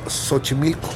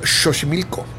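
First: The word begins with a plain s sound. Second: The word begins with a raspy sh sound. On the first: This is the current everyday pronunciation. "decimos Xochimilco" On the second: This is the older pronunciation, no longer used. "Ya no decimos Xochimilco"

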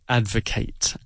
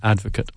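First: It is said with the verb pronunciation. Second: It is said with the noun pronunciation. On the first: It is the action of supporting something. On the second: It names a person who supports something.

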